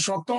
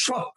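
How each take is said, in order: First: শত said as shoto, with a final o; শত with an open o at the end, shoto; correct pronunciation demo. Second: শত said as shot, no final o; শত clipped as shot, ending on the t; wrong pronunciation demo. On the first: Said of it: "লাস্টে একটা অ আছে". (শত শেষে অ দিয়ে, শতো বলে) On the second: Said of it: "আপনি কিন্তু বলেন না". (শত শেষে অ ছাড়া, শত্ বলে) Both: Shown as a demonstration.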